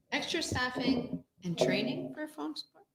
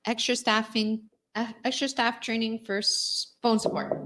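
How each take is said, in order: First: "Extra staffing and training for phone support?" rising like a puzzled question; puzzled questioning rise. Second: Said in the usual way. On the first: Shown as a demonstration. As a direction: lift the end of "phone support?" in doubt.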